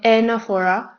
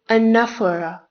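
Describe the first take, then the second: First: The stress falls on a syllable other than the second. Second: The stress falls on the second syllable. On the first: The speaker calls it wrong. "it is not anaphora" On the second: The speaker calls it right. "The stress is on the second syllable neph"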